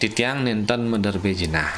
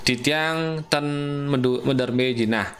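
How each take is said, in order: First: The second word is said in its full form. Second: The second word is clipped to a short form. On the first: It is the fully polite register. The speaker calls it right. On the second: It is the middle-polite register. The speaker calls it wrong. "ten patutne nenten"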